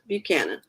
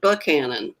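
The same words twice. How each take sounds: First: It is said in a neutral accent. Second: It is said in a Southern US accent.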